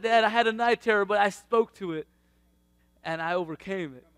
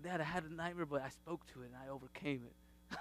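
First: Higher and louder, bursting with pride; the boy announcing his victory, loud; proud son's report. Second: Put-on softly, as the little boy telling his dad; hushed child's report, understated; son's quiet report. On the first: Retold or imitated. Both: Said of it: "He's like".

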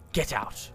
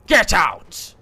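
First: Low, soft 'get out'; low quiet order. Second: 'get out' raised to a loud call; loud order. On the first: Player reading the game's order, low and quiet. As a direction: say it under your voice, low. First take of repeated order. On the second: Player repeating the game's order, loud exclamation. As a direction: burst out louder on the order. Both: Real, not acted.

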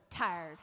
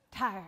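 First: "Tired" drawn out in a lazy Southern accent; "Tired" with a Southern drawl, falling off. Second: Said in the usual way. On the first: Shown as a demonstration. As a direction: say "Tired" like a slow Southerner, dropping low at the end. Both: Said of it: "Try saying it like a Southerner".

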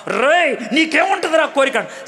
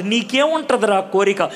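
First: High, rough "రేయ్, నీకేముంటుందిరా కోరిక?" with scorn; rude jailer. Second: Said in the usual way. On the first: Shown as a demonstration. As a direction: bark "రేయ్" then sneer "నీకేముంటుందిరా కోరిక?" much higher. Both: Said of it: "ఎందుకలా మాట్లాడుతాం?".

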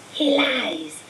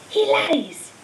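First: A cold, distant spirit voice accusing; eerie high voice. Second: The same cry again, higher and sharper; rising eerie accusation. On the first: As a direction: hiss the accusation like a disembodied spirit. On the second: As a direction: push the accusation up higher and harder. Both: A narrator's reading. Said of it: "a high voice spoke".

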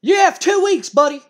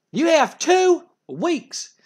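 First: Much higher and louder yell of "You have two weeks"; furious shout. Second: "You have two weeks" drawn out, very slow and high; slow menacing threat. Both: Retold or imitated. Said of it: "And Jim Cornette goes".

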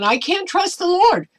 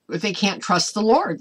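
First: Much higher, louder whiny voice; mock doubter's whine. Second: Said in the usual way. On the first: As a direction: mimic a faithless person, pitched way up. Voicing doubters' words.

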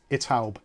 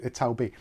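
First: "Italb" said as a single word, ending on a plain b; run together as one word. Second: "Ital B" said as two parts, with the letter B spelt out; owner's way, Ital B. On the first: Naming the local restaurant the usual way, "Italb" as one word. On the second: Explaining to viewers how the owner says the name, "Ital B" with a spelt-out B. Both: Shown as a demonstration. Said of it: "he always calls it Ital B".

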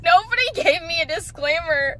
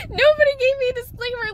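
First: Said in the usual way. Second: Higher, louder exasperated repeat; pitched-up disbelieving complaint. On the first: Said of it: "repeated line". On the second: Real, not acted. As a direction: say it again, more fed up. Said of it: "repeated emphatic line".

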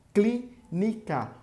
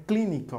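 First: "clínica" slow and higher, as clí, ni, ca; split into syllables. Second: Said in the usual way. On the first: Shown as a demonstration. Teacher counting syllables for pupils, "clínica" split up. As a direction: pause between the syllables of "clínica". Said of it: "Se eu separar, vai ficar assim". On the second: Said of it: "Se eu separar".

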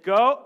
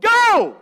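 First: Loud, clipped order to go; sharp command. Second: Much higher, much louder yelled "Go!"; screamed command. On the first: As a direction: tell her firmly to go, loudly. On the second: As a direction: scream "Go!" at her at full power. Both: Retold or imitated. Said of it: "I screamed this at this lady".

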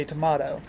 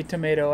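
First: "tomato" said as to-MAH-to; broad AH in the middle of "tomato"; tomahto pronunciation. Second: Said in the usual way. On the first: Shown as a demonstration. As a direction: rhyme the middle of "tomato" with spa. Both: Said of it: "the song goes".

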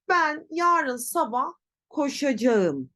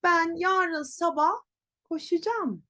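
First: Koşacağım in full, ko-sha-ja-ım; written form. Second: Koşacağım as ko-shu-jam, higher; spoken contraction. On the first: Teacher reads written sentence, full koşacağım. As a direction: read koşacağım as spelt. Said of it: "Telaffuz tabii ki böyle değil". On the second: Teacher shows pronunciation, koşacağım as koşucam. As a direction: pitch up, shorten koşacağım to koşucam. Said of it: "Nasıl telaffuz edeceğim?". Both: Shown as a demonstration.

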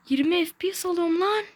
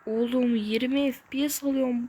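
First: Much higher, louder frustrated cry; exasperated outburst. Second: Said in the usual way. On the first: Real, not acted. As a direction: blow up at the lag. Repeats lag complaint, exasperated.

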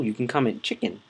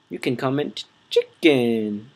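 First: Said in the usual way. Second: CHICKEN slowed and stretched out long; pause, then draw out "chicken" slowly; drawn-out emphasis. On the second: Real, not acted. Player tells viewers what to comment, drawn-out emphasis on chicken. Repeats it with drawn-out last word.

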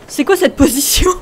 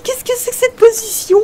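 First: Laughing shout. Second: Much higher, prim put-on voice correcting himself; mock proper correction. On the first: Real, not acted. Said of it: "On dit, qu'est-ce que c'est que cette position?". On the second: Shown as a demonstration. Gamer corrects his own slangy French in a prim high voice. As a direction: correct the phrasing like a fussy teacher. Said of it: "On dit".

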